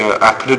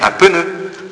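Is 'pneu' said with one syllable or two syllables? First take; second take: one; two. First: Pneu is said as one syllable, no added vowel. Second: Pneu is said as two syllables with added vowel. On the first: "Tu dis un pneu de voiture" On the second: "les Marseillais, c'est un pneu"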